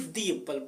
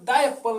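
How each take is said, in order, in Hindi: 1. शब्द 'the' को लंबे 'thee' के साथ बोला जाता है। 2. शब्द 'the' को छोटे 'thuh' के साथ बोला जाता है। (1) "बल्कि दी एप्पल पढ़ेंगे" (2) "अब हम द एप्पल नहीं"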